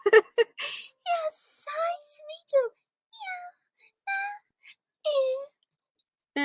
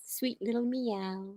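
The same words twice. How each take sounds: First: Much higher cooing "sweet little meow"; pet voice. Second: Said in the usual way. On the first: Real, not acted. Owner cooing at the cat, "sweet little meow" very high. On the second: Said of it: "She meows".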